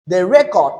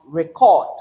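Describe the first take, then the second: First: RECord, first syllable punched loud, then falling; noun stress on first syllable. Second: ReCORD, drawn out, strong second syllable; verb stress on second syllable. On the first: Teacher giving the noun example, first syllable stressed in record. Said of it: "record there is a noun". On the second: Teacher giving the verb, second syllable stressed in record. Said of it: "there is a verb". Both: Shown as a demonstration.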